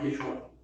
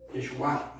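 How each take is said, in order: First: "Yeshua" without the accent on the final A; the mistaken "Yeshua", final A left weak; wrong stress. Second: "Yeshua" with the accent on the last A; low, lifting onto the final A of "Yeshua"; "Yeshua" said as yeshu-A; stress on final A. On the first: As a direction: say "Yeshua" low, stressed before the last syllable. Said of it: "no Yeshua". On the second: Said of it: "con acento en la A". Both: Shown as a demonstration.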